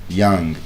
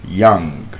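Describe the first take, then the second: The two takes are said the same way.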